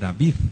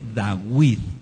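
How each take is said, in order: First: The middle consonant is a V sound. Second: The middle consonant is a W sound. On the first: This is the name's later pronunciation. The speaker calls it wrong. "No es el rey David" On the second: This is the name's original pronunciation. The speaker calls it right. "La letra Vav sonaba como W. Por eso el Melech Dawid es el rey Dawid"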